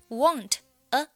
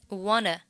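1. 这两个词是分开读的。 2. 这两个词连成一个音。

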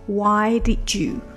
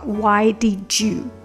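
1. 'did' 和 'you' 连在一起，读成一个音。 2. 'did' 和 'you' 连在一起，读成一个音。

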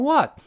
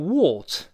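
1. 这是美式口音，嘴形更大。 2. 这是英式口音。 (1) "美英口型夸张一点，这种what" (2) "英国人读成what"

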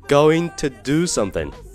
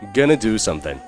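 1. going to 要完整说，两个词。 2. going to 弱化成 gonna。

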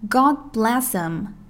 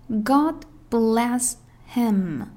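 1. 单词'him'读弱化形式。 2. 单词'him'读完整形式。

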